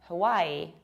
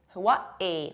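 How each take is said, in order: First: There is no glottal stop in the middle. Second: There is a glottal stop in the middle. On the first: This is how most mainland speakers say it. "majority of Americans say it like Hawaii" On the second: This is how people from the islands say it. "local people of the islands pronounce it like Hawaii with a glottal stop"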